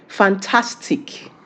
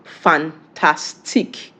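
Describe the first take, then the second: First: "fantastic" said slowly in English; English pronunciation. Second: "fantastique" broken slowly into syllables, French way; French pronunciation. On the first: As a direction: say English "fantastic" as one slow word. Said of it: "in English". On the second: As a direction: say French "fan-tas-tique" syllable by syllable. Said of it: "How is it pronounced in French?". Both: Shown as a demonstration.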